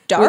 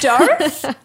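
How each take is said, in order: First: It is said in a plain accent. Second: It is said in a French accent.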